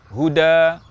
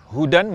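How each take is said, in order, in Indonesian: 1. Kata ini berakhir dengan a panjang. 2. Kata ini berakhir dengan bunyi sengau n.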